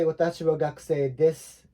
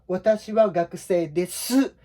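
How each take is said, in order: First: "desu" with the final u nearly vanishing, said like "dess"; easy, natural "gakusei desu" with the last vowel swallowed; natural Japanese ending. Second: Watashi wa gakusei desu with the final u of "desu" fully voiced and stressed; a wrong, over-enunciated "desu" with its u fully sounded; overstressed final vowel. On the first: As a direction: let the u of "desu" fade away, native style. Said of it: "we just say". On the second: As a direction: lean on the last vowel of "desu" unnaturally hard. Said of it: "sounds very weird". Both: Shown as a demonstration.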